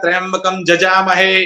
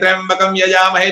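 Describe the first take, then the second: First: The second word begins with a 'j' sound. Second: The second word begins with a 'y' sound. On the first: "वो य का ज बोलेगा" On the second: "तो यजामहे नहीं"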